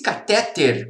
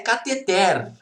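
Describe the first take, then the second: First: The stress is on the second-to-last syllable. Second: The stress is on the last syllable. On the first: The speaker calls it wrong. "Se fosse catéter, como boa parte das pessoas diz, deveria ter acento" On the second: The speaker calls it right. "a sílaba tônica é a última. Ela é uma oxítona. A pronúncia é cateter"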